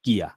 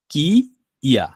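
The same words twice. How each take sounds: First: কিয়া run together as one word; joined sound. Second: কি, pause, then ইয়া; broken into parts. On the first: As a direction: join কি and য়া with no gap in কিয়া. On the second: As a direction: say কি and ইয়া as two separate pieces. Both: Shown as a demonstration. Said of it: "আমি ভেঙে ভেঙে লিখলাম".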